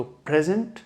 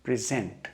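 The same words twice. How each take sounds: First: present as PREZ-unt, first syllable stressed. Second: present as pri-ZENT, second syllable stressed. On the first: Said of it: "इस पे focus देना चाह रहा हूँ". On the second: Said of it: "second part पे पड़ रहा है". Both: Shown as a demonstration.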